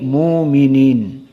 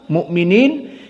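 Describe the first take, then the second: First: The glottal stop becomes a long u vowel. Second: A glottal stop follows the first syllable. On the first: "jadi muminin" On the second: "karena sebelumnya dhammah, mukminin jadi"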